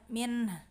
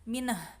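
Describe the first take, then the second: First: It ends in a quiet h without a vowel. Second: It ends in a bounced h with a vowel. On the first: The speaker calls it right. "haknya tetap ada" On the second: The speaker calls it wrong. "bukan minah. Ya, kalau minah mantul itu"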